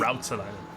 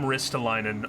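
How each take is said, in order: First: The first vowel is an 'ow' sound. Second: The first vowel is an 'i' sound. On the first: The speaker calls it right. "how to say it properly" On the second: The speaker calls it wrong. "I was using an I"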